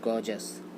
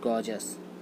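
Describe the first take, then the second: No difference in how they are said.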